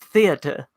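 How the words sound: It is said in a British accent.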